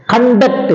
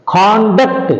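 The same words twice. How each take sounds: First: Conduct said "kun-DUCT", weak first vowel; conduct as a verb. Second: Conduct said "KAHN-duct", full open first vowel; conduct as a noun. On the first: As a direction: reduce the first syllable of conduct and lean on "duct". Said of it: "it is a verb". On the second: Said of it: "it is a noun". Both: Shown as a demonstration.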